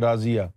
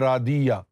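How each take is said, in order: First: The middle consonant is a z sound. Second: The middle consonant is a d sound.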